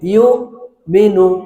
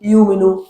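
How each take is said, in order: First: A sharp glottal catch comes before the second syllable. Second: The syllables run smoothly with no catch. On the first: The speaker calls it right. "এই যে ধাক্কা দিচ্ছেন, এটা হলো হামজার উচ্চারণ" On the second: The speaker calls it wrong. "যদি এরকম পড়েন তাহলে হামজা উচ্চারণটা বাদ পড়ে যাচ্ছে"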